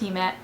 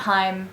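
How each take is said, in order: First: It is said as two syllables, hee-meh. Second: It is said as one syllable, rhyming with time. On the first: The speaker calls it right. "it's pronounced Hime" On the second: The speaker calls it wrong. "not Heim"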